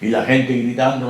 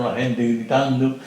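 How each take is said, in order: First: Said in the usual way. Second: "la gente gritando" repeated slowly, each word weighed down; slow, heavy repetition. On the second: Shown as a demonstration. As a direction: drag out "gritando" to let it sink in. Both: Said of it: "repeated phrase".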